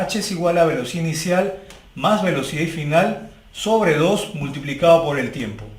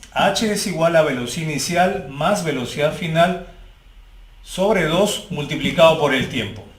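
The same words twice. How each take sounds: The two takes are said the same way.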